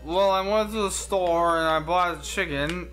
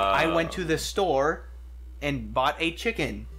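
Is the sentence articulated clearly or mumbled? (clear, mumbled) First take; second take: mumbled; clear. First: The words are mumbled and run together. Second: Each word is articulated crisply and clearly. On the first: The speaker calls it wrong. "If somebody's like, well" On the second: The speaker calls it right. "Enunciate. It would be like"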